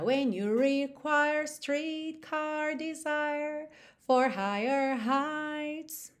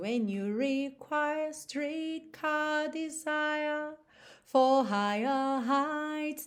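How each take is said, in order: First: The r sounds after vowels are pronounced. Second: The r sounds after vowels are dropped. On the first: "pode enrolar a língua" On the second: "Olha quanta diferença"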